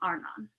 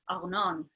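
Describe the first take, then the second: First: The name is said in a plain accent. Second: The name is said in an Israeli accent.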